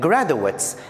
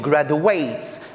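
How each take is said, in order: First: It is pronounced as the noun form. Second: It is pronounced as the verb form. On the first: It names people who have finished a degree. "I'm saying graduates, that's the noun" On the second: It names the action of finishing a degree. "I'm not saying graduates, because to graduate is the verb"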